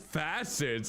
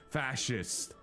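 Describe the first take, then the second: First: The middle consonant is a plain s sound. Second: The middle consonant is an sh sound. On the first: The speaker calls it wrong. "I can't even pronounce them correctly" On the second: The speaker calls it right. "There we go"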